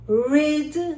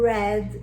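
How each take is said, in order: First: The vowel is long, like 'reed'. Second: The vowel is short, like 'red'. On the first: The action happens now. "Read is in the present" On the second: The action happened before. "read in the past"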